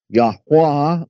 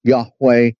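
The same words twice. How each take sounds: First: Yahweh said as "YAH-wah"; variant pronunciation. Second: Yahweh said as "YAH-way"; common pronunciation. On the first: Teacher listing forms of the name, Yahweh as "YAH-wah". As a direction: end Yahweh on an open "wah". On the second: Teacher listing forms of the name, Yahweh as "YAH-way". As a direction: end Yahweh on a "way" sound. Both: Shown as a demonstration. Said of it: "real pronunciation of the name".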